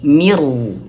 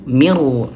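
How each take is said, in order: The two takes are said the same way.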